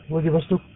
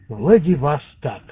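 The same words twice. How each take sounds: First: Only one syllable of the word carries stress. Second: Two syllables of the word carry stress. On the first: "а мы сами с Владивостока так и говорим" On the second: "Надо делать 2 ударения в названии этого города"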